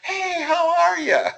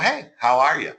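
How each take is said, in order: First: The greeting sounds overdone and fake. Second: The greeting sounds lively with a bit more energy.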